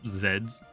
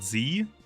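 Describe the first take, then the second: First: The letter is said the British way, zed. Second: The letter is said the American way, zee.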